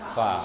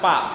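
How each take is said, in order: First: The syllable starts with an f sound. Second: The syllable starts with a p sound. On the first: The speaker calls it right. "tapi fa" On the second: The speaker calls it wrong. "Bukan pak"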